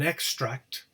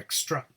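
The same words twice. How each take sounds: First: The stress is on the first syllable. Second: The stress is on the second syllable. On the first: It is used as a noun. "the noun, as you can see, is stressed on the first syllable" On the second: It is used as a verb. "the verb is stressed on the second syllable"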